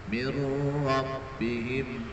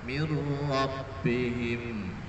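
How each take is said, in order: Both takes have the same delivery.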